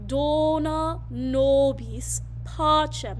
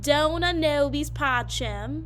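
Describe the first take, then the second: First: The vowels are long and tall. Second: The vowels are wide and spread. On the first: The speaker calls it right. "make sure it is long sounds, like" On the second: The speaker calls it wrong. "not ... We don't want wide vowels"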